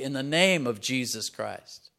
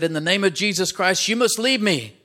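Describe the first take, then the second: First: Slow and weighty, leaning on name; solemn measured "In the name of Jesus Christ"; slow solemn command. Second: High, loud forceful rebuke; loud rebuke "In the name of Jesus Christ" hitting every word; commanding rebuke. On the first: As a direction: lay it down slowly, stressing name. Quoting Peter's healing command. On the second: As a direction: drive the demons out with your voice. Man rebukes the demons. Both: Acted.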